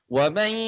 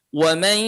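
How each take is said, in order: Both takes have the same delivery.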